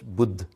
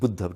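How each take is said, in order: First: The word ends without a final vowel sound. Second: The word ends with a final vowel sound. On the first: "don't talk about buddha, just buddh" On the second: "the final a is um, not pronounced"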